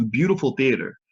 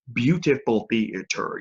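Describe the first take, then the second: First: Said in the usual way. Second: Slow, syllable-by-syllable stress on "Beautiful theater"; drawn-out emphasis. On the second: Real, not acted. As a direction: stretch out each syllable of "Beautiful theater" to savor it. Repeats it slower for emphasis.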